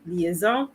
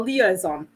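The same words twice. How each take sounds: First: The word is pronounced with French sounds. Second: The word is pronounced with English sounds. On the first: "my tendency of pronouncing it the French way" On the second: "how to pronounce it in English"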